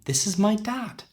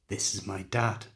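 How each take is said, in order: First: The pitch rises at the end. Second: The pitch falls at the end. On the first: It sounds like a question. The speaker calls it wrong. "It sounds like a question" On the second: It is a statement. The speaker calls it right. "We need to go down at the end because it's a statement"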